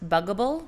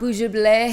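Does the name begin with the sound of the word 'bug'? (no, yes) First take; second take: yes; no. First: It begins with the word 'bug'. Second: It does not begin with the word 'bug'. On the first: The speaker calls it right. "It's like bug and edible" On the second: The speaker calls it wrong. "not bougeable"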